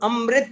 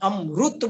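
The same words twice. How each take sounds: First: The middle syllable is said as 'ri'. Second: The middle syllable is said as 'ru'. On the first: "कहीं अमृत नहीं बोलेंगे" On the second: "अमृत रू बोलते हैं"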